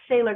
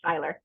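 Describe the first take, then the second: First: The name sounds like the word sailor. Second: The name does not sound like sailor. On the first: This is how others mistakenly called her. The speaker calls it wrong. "I was called Sailor Girl" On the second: This is her real name. The speaker calls it right. "but it's it's actually Siler"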